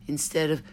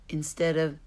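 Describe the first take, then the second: No difference in how they are said.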